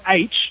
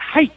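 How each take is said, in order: First: The letter name begins with a vowel sound. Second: The letter name begins with an h sound. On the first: This is how the speaker's own community says it. "you know how we say the word H ... they don't say H" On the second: This is how people in Australia say it. "In Australia, ... they say H"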